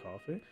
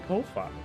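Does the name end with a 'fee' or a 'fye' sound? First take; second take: fee; fye. First: It is said like the word coffee. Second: It is two beats, ending like Wi-Fi. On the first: "I always thought it should sound like coffee" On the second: "it's Wi-Fi Ko-Fi. It has the hyphen, so it, it's two separate beats"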